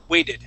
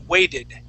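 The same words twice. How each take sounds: First: The middle consonant sounds like a D. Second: The same.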